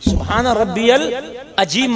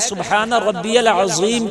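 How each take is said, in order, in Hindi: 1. यह शब्द सादा 'j' ध्वनि के साथ बोला जाता है। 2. यह शब्द भारी 'za' ध्वनि के साथ बोला जाता है। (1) "सुबहान रब्बियल अजीम मत कहो" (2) "अगर ज़ा नहीं निकाल सकते"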